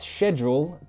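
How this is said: It is said with a British pronunciation. "In British English, we pronounce it"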